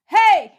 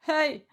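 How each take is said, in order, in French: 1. L'appel est fort et projeté librement. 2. L'appel est contenu et retenu. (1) "tu veux l'apostropher, tu fais" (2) "tu retiens pas... là, c'est pas du belting"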